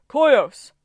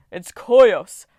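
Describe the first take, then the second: First: A Titan crowing his name; higher, louder proud yell; higher booming shout. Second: A Titan bellowing his own name; loud proud yell; booming shout. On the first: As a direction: bellow the name again, pitched up. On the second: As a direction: roar it out proudly. Titan announcing himself loudly. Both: Acted.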